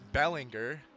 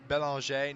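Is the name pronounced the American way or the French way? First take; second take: American; French. First: The name is pronounced the American way. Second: The name is pronounced the French way. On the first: The speaker calls it wrong. "I've been pronouncing it like the filthy American that I am" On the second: The speaker calls it right. "it might be a French Canadian name. Sure enough, it is Belanger"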